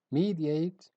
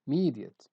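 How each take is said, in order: First: "mediate" ending like "ate", tune rising; full final vowel. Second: "mediate" ending in a weak "-ut", tune falling; reduced final vowel. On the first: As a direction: say "mediate" as MEE-dee-ate. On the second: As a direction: say "mediate" as MEE-dee-ut. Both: Shown as a demonstration. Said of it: "it has two pronunciations".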